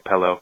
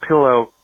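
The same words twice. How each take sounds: First: The first vowel is an 'e' sound. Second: The first vowel is a short 'i' sound. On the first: The speaker calls it wrong. "I say the same thing with pillow. ... I say pillow" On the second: The speaker calls it right. "It's a pillow"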